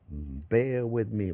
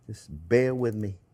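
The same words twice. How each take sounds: First: Very slow and soft, stretching bear with me; slow drawn-out bear with me. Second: Said in the usual way. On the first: Real, not acted. Cook begging viewers' patience, slow and drawn out. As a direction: draw it out like a patient plea.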